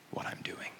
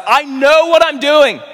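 First: Barely audible whisper; whispered assurance. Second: High, loud, drawn-out cry; impassioned shout. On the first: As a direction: whisper it as the last word. Closing words fade to whisper. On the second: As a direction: cry it out with full preaching force. Preacher cries out as Jesus. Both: Retold or imitated.

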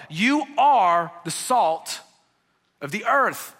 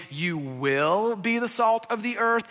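First: "are" stressed, slow and a bit louder; statement of fact. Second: "You will be" read as a future promise, a little slower; wrong version as a promise. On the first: Preacher tells followers what they are, slow stress on "are". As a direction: land "You are the salt" as plain fact. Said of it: "This is what you are". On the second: Preacher shows the wrong reading to his congregation, mild contrast. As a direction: set it up as the reading to reject. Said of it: "This is not a". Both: Shown as a demonstration.

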